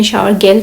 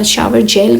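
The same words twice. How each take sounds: First: जेल said German-style with a hard g; German pronunciation. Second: Said in the usual way. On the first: Shown as a demonstration. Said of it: "German में shower जेल कहते हैं". (जेल का German उच्चारण, "ग" की आवाज़ से) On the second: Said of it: "shower जेल को जर्मन में".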